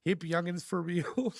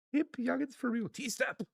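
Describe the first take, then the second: First: Said in the usual way. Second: Laughing through the words. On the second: Real, not acted. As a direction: giggle while reading it out. Repeating chat message, then laughing.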